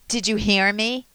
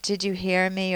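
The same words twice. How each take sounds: First: It is said with a sharp, irritated edge. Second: It is said in a neutral, checking tone.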